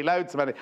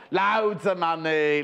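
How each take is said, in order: First: Said in the usual way. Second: Slow, stretched put-on voice; hammed-up slow Loadsamoney; Harry Enfield catchphrase. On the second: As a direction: draw out every word like a show-off. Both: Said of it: "Harry Enfield".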